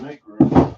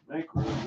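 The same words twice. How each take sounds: First: Loud call. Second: Hushed whisper. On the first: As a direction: call it out for space. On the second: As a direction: whisper it under your breath. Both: Pretend. Calling for space, hushed then loud.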